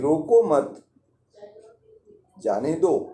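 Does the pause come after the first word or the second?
second. There is a pause after the second word. The guest should be allowed to leave. "दूसरी बार उस अतिथि को न रोकने के लिए कहा गया है"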